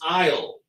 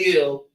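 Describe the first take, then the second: First: The word sounds like 'isle' with a long vowel. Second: The word sounds like 'ill' with a short vowel. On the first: The speaker calls it right. "But the word is isle" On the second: The speaker calls it wrong. "is that why the hell I hear people saying ill"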